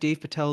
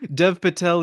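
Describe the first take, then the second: First: The first name has the vowel of 'day'. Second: The first name has the vowel of 'bed'. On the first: The speaker calls it wrong. "I think I mispronounced his name" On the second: The speaker calls it right. "Dev Patel, not Dave Patel"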